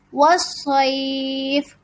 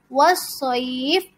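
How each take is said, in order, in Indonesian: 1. Vokal sebelum akhir ditahan agak lebih panjang. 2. Vokal sebelum akhir ditahan sebentar. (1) "dipanjangkan empat harokat"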